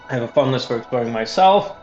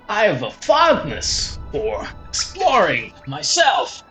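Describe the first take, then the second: First: It is read in the speaker's normal voice. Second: It is read in a put-on character voice.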